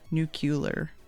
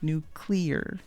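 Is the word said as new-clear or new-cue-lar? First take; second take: new-cue-lar; new-clear. First: It has an extra 'cue' sound before the L. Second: It is said as 'new' followed by 'clear'. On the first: The speaker calls it wrong. "The wrong way to say it is nuclear" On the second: The speaker calls it right. "it's like new. It's nuclear"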